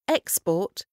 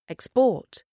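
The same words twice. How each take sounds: First: The stress is on the first syllable. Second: The stress is on the second syllable. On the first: It is a noun. "Quand le mot est accentué sur la première syllabe, c'est un nom" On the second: It is a verb. "Quand le même mot est accentué sur la deuxième, c'est un verbe"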